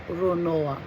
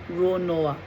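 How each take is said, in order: The two takes are said the same way.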